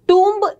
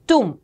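First: A b sound is heard at the end. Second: No b sound is heard at the end. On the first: The speaker calls it wrong. "इसे टूम्ब नहीं कहते हैं" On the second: The speaker calls it right. "ब silent रहता है"

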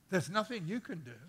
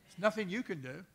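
No difference in how they are said.

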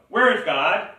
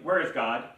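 First: It is asked more sternly and louder. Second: It is asked sternly at moderate volume.

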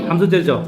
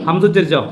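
The two takes are said the same way.

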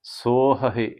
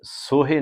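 First: Two separate h sounds are heard. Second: Only one h sound is heard. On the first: The speaker calls it right. "ਦੋਨਾਂ ਹਾਹਿਆਂ ਦੀ ਆਵਾਜ਼ ਕੱਢਣੀ ਹੈ" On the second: The speaker calls it wrong. "ਇੱਥੇ ਸੋਹੇ ਨਹੀਂ ਬੋਲਣਾ ਹੈ"

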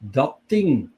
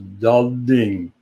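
First: Both consonants at the word join are voiceless. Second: Both consonants at the word join are voiced. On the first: "the second word adapts, becomes unvoiced" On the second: "the first word adapts to the second word... voiced"

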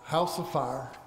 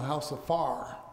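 First: It is said in the speaker's plain accent. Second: It is said in an Oklahoma accent.

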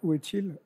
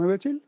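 First: The voice does not rise at the end. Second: The voice rises and stays high at the end.

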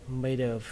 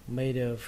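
Both takes have the same delivery.

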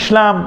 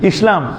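First: The s sound is not a clear sin. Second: The s sound is a clear sin. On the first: The speaker calls it wrong. "দেখো না এরকম বলে না" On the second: The speaker calls it right. "সিনের উচ্চারণ আলাদা"

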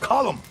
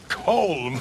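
First: The name is said with an Irish pronunciation. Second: The name is said with an American pronunciation. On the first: This is how the name is said in Ireland. The speaker calls it right. "In Ireland, we say Colm" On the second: This is not how the name is said in Ireland. The speaker calls it wrong. "It's not Colm"

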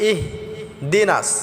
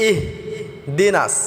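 Both takes have the same delivery.

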